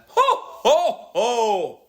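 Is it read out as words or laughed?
laughed. It is voiced as a real hearty laugh.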